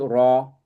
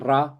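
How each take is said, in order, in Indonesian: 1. Suku kata r terdengar tebal dan berat. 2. Suku kata r terdengar tipis dan ringan. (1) "ro-nya ini tebel" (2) "bukan ra"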